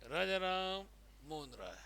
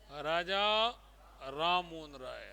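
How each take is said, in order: First: Raja Ram joined as one name, then Mohan राय trailing off softer; don't group it as Raja Ram, Mohan राय; wrong grouping. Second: Raja set apart by a pause, then Ram Mohan राय together; title Raja, pause, name Ram Mohan राय in one breath; Raja rising, short break, Ram Mohan राय falling; pause after Raja. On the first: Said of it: "नहीं कि". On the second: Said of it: "तो क्या बताओगे?". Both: Shown as a demonstration.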